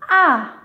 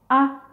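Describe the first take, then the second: First: The pitch falls sharply from high to low. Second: The vowel is short and light in pitch. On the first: "qui part du niveau cinq, le plus haut vers le plus bas" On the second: "un ton court et léger"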